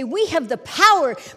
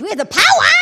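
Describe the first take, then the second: First: It is said at a normal, moderate volume. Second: It is screamed very loudly and forcefully.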